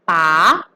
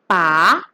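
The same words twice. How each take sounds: The two takes are said the same way.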